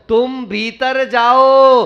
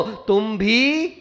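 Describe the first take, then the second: First: "भीतर" run together as one word, loud and drawn out; phrasing "भीतर" as one word. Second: "तुम भी" stretched slowly, then left hanging; split after "भी". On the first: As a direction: say "भीतर जाओ" slowly and forcefully, no break inside "भीतर". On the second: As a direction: break off after "भी", separating it from what follows. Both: Shown as a demonstration. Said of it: "कैसा कहा था परसों".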